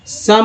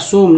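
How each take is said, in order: First: The vowel sounds like 'uh'. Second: The vowel sounds like 'oh'. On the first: The speaker calls it right. "सम हो रहा है" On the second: The speaker calls it wrong. "सोम नहीं"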